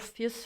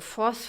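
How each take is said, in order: First: The vowel sounds like the one in 'fear'. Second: The vowel sounds like the one in 'force'. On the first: The speaker calls it right. "for fierce" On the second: The speaker calls it wrong. "they have to pronounce the name"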